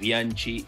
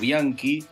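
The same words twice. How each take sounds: First: The ch is said like Spanish ch. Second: The ch is said like a k. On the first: It is the Spanish pronunciation used in Argentina. The speaker calls it right. "es Bianchi" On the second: It is the original Italian pronunciation. The speaker calls it wrong. "y no Bianchi"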